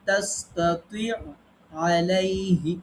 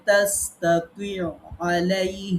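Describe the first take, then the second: Both takes have the same delivery.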